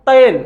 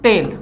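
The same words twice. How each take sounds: First: Put-on तेल said as the old Sanskrit form, carefully and a bit louder; teacher modelling तेल in its Sanskrit form for students to repeat. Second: Teacher giving the changed Hindi form of तेल; everyday Hindi form. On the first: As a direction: sound out तेल the way the original Sanskrit word is pronounced. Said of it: "मेरे साथ उच्चारण कीजिएगा". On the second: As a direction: drop back to the everyday spoken तेल. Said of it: "इसको परिवर्तित करके हम कहते हैं". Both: Shown as a demonstration.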